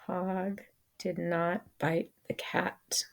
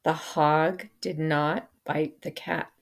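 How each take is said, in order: First: Whispered repeat of the sentence, hushed and breathy; soft whispered echo for the class. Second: Said in the usual way. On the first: Shown as a demonstration. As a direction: say it again in a whisper.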